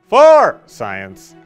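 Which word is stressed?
For. The emphasis falls on the word for.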